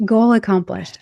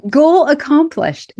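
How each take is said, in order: First: Said in the usual way. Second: Higher, louder and slow, savouring it; triumphant. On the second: Real, not acted. Declaring her healing goal met, slow loud triumph. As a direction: announce victory like a finish line. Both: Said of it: "Makes me very excited".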